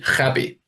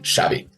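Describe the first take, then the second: First: The name begins with a throaty h sound. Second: The name begins with an sh sound. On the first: The name is read as Spanish. The speaker calls it wrong. "It must be Javi" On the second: The name is read as Catalan. The speaker calls it right. "the X is sh, so it is indeed Xavi"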